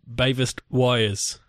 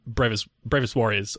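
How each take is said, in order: First: The R sounds are dropped, childlike. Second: The R sounds are pronounced clearly.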